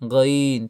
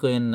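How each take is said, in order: First: The word begins with a throaty gh sound. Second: The word begins with a plain k sound. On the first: The speaker calls it right. "কি বলবেন? গইন" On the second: The speaker calls it wrong. "গইন কইেন না আবার"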